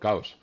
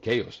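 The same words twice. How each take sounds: First: It is pronounced the Spanish way. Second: It is pronounced the original English way. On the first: "I don't pronounce those names sometimes the way they are" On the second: "I don't say are they from chaos"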